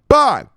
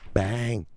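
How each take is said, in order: First: The word is said loudly and forcefully. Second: The word is said softly and quietly. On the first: The speaker calls it right. "Bang is some loud noise" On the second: The speaker calls it wrong. "a little soft bang for Chris"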